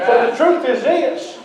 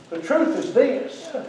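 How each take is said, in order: First: Said in the usual way. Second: Soft, drawn-out repeat for weight; slow right down and drop the volume; slow and hushed. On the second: Real, not acted. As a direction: let it sink in, softly and slowly.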